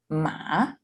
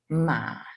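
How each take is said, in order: First: The pitch climbs from low to high. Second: The pitch stays level in the middle. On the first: "rising tone" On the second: "mid tone"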